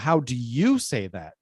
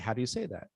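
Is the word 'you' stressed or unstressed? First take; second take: stressed; unstressed. First: The word 'you' carries strong stress. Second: The word 'you' carries no special stress. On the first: It asks specifically about the listener. "I emphasize you to say specifically you" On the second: It asks about people in general. "if it's in general, then I just say"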